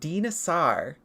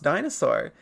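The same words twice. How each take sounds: First: It uses a classical Greek or Latin pronunciation. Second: It uses the usual modern English pronunciation. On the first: The speaker calls it right. "the intended pronunciations of how Greek and Latin are actually pronounced" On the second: The speaker calls it wrong. "It is not pronounced dinosaur"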